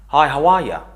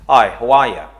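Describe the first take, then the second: Both takes have the same delivery.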